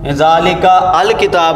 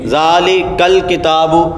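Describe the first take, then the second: First: The article is said separately after a vowel. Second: The article is merged into the preceding word. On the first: The speaker calls it wrong. "नहीं" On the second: The speaker calls it right. "इस अंदाज से हम पढ़ते हैं"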